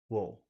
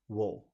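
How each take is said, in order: First: The vowel is reduced, sounding like wool. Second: The same.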